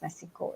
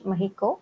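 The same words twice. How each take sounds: First: The middle consonant is a ks sound. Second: The middle consonant is an h sound. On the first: "they don't pronounce as Mexico" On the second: "The the the X they pronounce as H"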